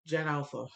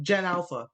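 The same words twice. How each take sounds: First: "Gen Alpha" repeated much softer, falling; quiet repeat. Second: Said in the usual way. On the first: Shown as a demonstration. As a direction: drop to a soft aside on "Gen Alpha". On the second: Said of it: "Oh, no, wait".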